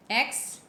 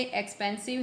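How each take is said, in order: First: एक्सपेंसिव broken into three syllables with long pauses. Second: Said in the usual way. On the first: Shown as a demonstration. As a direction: count out एक्स, पेन, सिव separately. (एक्सपेंसिव को तीन syllable में तोड़कर, रुक-रुक कर) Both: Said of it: "कितने syllable हैं ये".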